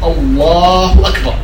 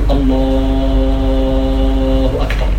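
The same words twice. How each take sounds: First: The vowels are kept short. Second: The vowels are drawn out long. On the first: The speaker calls it right. "وإنما يكون من غير مد، فتقول الله أكبر" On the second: The speaker calls it wrong. "فلا تمد التكبير في الصلاة، فلا تقول الله أكبر"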